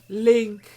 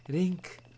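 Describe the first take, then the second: First: The name is said with an English accent. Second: The name is said with a Japanese accent. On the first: This is the usual English way of saying it. "instead of" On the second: This is how the character says it in Japanese. "I have my game language set to Japanese, so she says"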